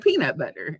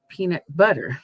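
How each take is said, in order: First: The stress is on peanut. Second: The stress is on butter.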